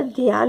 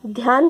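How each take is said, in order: First: ध्यान said as "dhi-yaan"; mispronounced ध्यान. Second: Said in the usual way. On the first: Shown as a demonstration. Teacher showing a spelling error's cause, ध्यान mispronounced as "dhiyaan". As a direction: split the opening dhy of ध्यान into "dhi-y". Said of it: "अशुद्ध उच्चारण के कारण ही". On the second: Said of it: "अशुद्ध उच्चारण के कारण".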